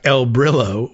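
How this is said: The name is said with English pronunciation. "the anglicized way, like the cleaning product"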